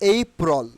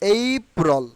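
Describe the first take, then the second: First: The first vowel is a gliding 'ay'. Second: The first vowel is a gliding 'ay'.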